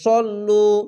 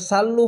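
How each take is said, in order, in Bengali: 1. প্রথম ব্যঞ্জনটি মোটা, চওড়া s। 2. প্রথম ব্যঞ্জনটি পাতলা, সরু s। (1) "মোটা অক্ষর সদ জবর স তো সল্লু" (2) "এখানে সাল্লু হবে না"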